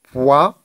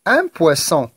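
First: "poisson" as poi, long pause, sson; split into syllables. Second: Said in the usual way. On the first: Shown as a demonstration. Teacher cutting words for pupils, "poisson" syllable by syllable. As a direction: hold "poi", wait, then finish "poisson". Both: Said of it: "pour les syllabes".

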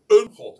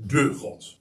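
First: "een" hit hard as the indefinite article before "God"; stress on EEN. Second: "de" drawn out as a full word before "God"; stress on DE. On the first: Preacher dismissing talk of just any god, emphatic "een". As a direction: punch "een" in "een God", louder than the words around it. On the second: Preacher stressing to listeners that it is the one God, emphatic "de". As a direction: lean on "de" in "de God", set apart from "God". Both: Shown as a demonstration. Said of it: "dat zo even te benadrukken".

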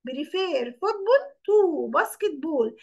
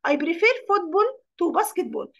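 First: Very slow, drawn out to the end; slower dictation. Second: Very slow, stress on prefer; slow dictation. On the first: Teacher repeating the sentence for pupils, even slower. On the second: Teacher reading the example sentence to pupils, very slow. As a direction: dictate word by word. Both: Shown as a demonstration.

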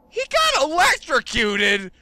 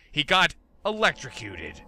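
First: High, louder shocked repeat; shocked disbelief. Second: Said in the usual way. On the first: Real, not acted.

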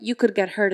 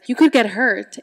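First: Said in the usual way. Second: Louder, mock snap of warning; snapping. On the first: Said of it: "then tells you that". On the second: Creepy girl warning her playmate off, snapping. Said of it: "she just snaps at her".

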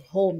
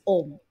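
First: Said in the usual way. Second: "om" said with no H at the start; dropped H. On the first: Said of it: "instead of home, it's om". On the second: Retold or imitated. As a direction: say "om", home minus its opening H. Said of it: "there's no H in their native language".

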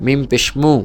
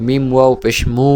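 First: Said in the usual way. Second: Long, sustained final মু; elongated vowel. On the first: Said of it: "এটা স্বাভাবিক উচ্চারণ হরকতের". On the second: Shown as a demonstration. Teacher repeating mim for students, মু held long. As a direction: stretch out the closing মু. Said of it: "মদের সাথে টেনে উচ্চারণ করেন".

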